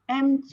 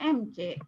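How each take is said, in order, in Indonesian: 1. Huruf-hurufnya dilafalkan dengan cara Inggris. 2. Huruf-hurufnya dilafalkan dengan cara Indonesia.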